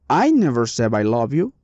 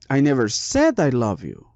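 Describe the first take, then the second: First: The stress falls on the first word, I. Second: The stress falls on the word said. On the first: Someone else said it. "Here the meaning is maybe somebody else did it" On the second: It was written, not said aloud. "maybe I wrote it, but I never said it"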